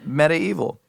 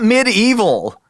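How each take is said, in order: First: It does not sound like 'mid evil'. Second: It sounds like 'mid evil'. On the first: The speaker calls it right. "No, it's medieval" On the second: The speaker calls it wrong. "It's not in the middle of the evil"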